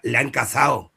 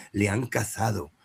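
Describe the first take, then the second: First: "cazado" said as "cazao", the d dropped; casual "cazao" with no d sound; sloppy pronunciation. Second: "cazado" with a clear soft d, softer; careful pronunciation. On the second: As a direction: say every sound of "cazado", the d included. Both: Shown as a demonstration. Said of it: "tiene que pronunciar perfectamente".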